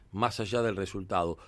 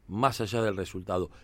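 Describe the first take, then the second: No difference in how they are said.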